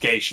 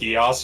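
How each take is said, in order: First: It is said as one syllable, like gaysh. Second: It is said with two syllables, like gee-as. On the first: This is how Irish or Gaelic says it. "it's pronounced Gaish in that language" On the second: This is how the series says it. "they're pronounced Gias here"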